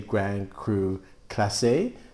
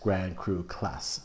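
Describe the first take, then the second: First: The final e of Classé is pronounced. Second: The final e of Classé is not pronounced. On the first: The speaker calls it wrong. "I always say Grand Cru Classé" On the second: The speaker calls it right. "the E is silent, so it's just Grand Cru Class"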